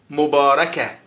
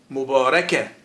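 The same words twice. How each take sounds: The two takes are said the same way.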